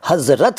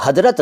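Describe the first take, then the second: First: हज़रत with a clear z, hazrat; हज़रत said correctly as hazrat, buzzing z; correct z sound. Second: हज़रत said as hadrat, with a d for the z; हज़रत pronounced wrongly as hadrat, d instead of z; wrong d sound. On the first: Teacher gives viewers the correct hazrat for हज़रत. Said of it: "हज़रत कहते हैं". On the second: Teacher demonstrates the wrong hadrat for हज़रत to viewers. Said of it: "इसको आप हज़रत नहीं कहते". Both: Shown as a demonstration.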